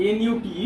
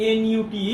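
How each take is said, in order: The two takes are said the same way.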